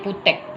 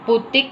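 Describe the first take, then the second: First: The last vowel is pronounced as an open 'e'. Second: The last vowel is pronounced as a close 'i'. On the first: "Huruf I dibaca menjadi huruf E" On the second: "Huruf I dibaca menjadi huruf E"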